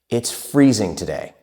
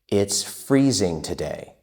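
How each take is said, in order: First: It is spoken at a fast, fluent pace. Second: It is spoken at a moderately quick pace. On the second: "but a little bit faster"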